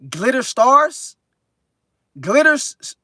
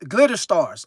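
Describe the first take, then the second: First: Slow, rising, puzzled take on "Glitter Stars"; puzzled reading. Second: Said in the usual way. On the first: Real, not acted. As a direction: sound out "Glitter Stars" slowly with a question rise. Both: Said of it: "Glitter Stars in this thing".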